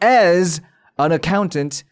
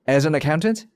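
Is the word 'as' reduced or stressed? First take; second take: stressed; reduced. First: The phrase is slower with 'as' stressed. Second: The phrase runs fast with 'as' unstressed. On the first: The speaker calls it wrong. "절대로 as an accountant 강조를 줘서 읽지 않는단 말이죠" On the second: The speaker calls it right. "빠르게 발음이 되면"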